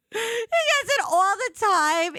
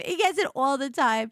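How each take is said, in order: First: High, loud laugh through words. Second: Said in the usual way. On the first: Real, not acted. Telling the listeners about her friend, laughing hard.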